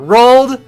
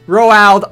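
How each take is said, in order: First: The name is said like the word 'rolled'. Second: The name is said as 'Roald', unlike 'rolled'. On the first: The speaker calls it right. "Felix says it's rolled" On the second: The speaker calls it wrong. "I always called him Roald"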